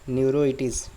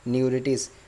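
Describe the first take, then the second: First: An 'o' sound follows 'neur' before '-itis'. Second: No 'o' sound follows 'neur' before '-itis'. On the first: The speaker calls it wrong. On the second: The speaker calls it right.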